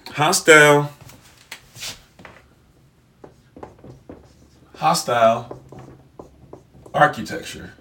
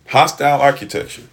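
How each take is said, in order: First: Hostile architecture spelled out word by word with long gaps; drawn out as if writing it on a board; slow dictation. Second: Said in the usual way. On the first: Shown as a demonstration. Writing the term out for viewers, slowly dictated. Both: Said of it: "Let me just write that out for you".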